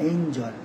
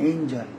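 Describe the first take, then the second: No difference in how they are said.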